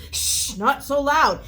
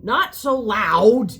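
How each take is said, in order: First: Loud, high retold shushing; piping in. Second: Loud, slow retold scolding; piping up. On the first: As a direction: shush them, then scold loudly and slowly. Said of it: "Ramon pipes in and sits there and said". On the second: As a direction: call it out loud, stretching each word. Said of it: "Ramon pipes up".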